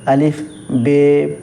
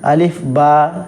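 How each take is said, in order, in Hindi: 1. दूसरा नाम 'ay' स्वर पर खत्म होता है। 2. दूसरा नाम 'ah' स्वर पर खत्म होता है। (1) "इस तरीके से भी लोग पढ़ते हैं।" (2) "लेकिन बेहतर ये है कि अलिफ बा, पा, ता, टा, इस तरीके से पढ़ा जाए।"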